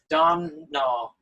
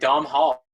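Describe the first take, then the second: First: The h in the middle is silent. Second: The h in the middle is pronounced. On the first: The speaker calls it right. "silent H" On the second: The speaker calls it wrong. "I thought it was gonna be like Dom Hall"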